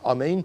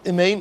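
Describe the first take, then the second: First: The first vowel is a full, open 'ah'. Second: The first vowel is a short, reduced 'eh'. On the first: The speaker calls it right. "Instead of say ah" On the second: The speaker calls it wrong. "Instead of say ah, you say eh"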